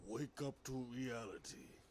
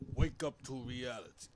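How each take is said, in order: First: The line is said with little emotion. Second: The line is said with strong emotion. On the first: The speaker calls it wrong. "It's not a good impression" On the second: The speaker calls it right. "Let me let me add some more feelings to that shit"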